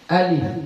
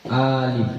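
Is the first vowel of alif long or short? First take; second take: short; long. First: The first vowel is kept short. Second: The first vowel is drawn out long. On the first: The speaker calls it right. "A-nya pendek saja" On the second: The speaker calls it wrong. "A-nya dibaca panjang. ... bukan ya"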